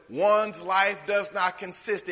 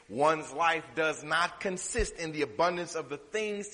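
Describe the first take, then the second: First: "one's life does not consist" slow and louder, each word leaned on; emphatic repeat. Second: Said in the usual way. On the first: Shown as a demonstration. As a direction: drive the verse home slowly, word by word. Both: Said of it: "but listen".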